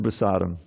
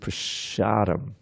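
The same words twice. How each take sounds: First: The middle consonant is a plain s sound. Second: The middle consonant is an sh sound. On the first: "it wasn't prasadam" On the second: "it was prasadam. ... the S often becomes S H"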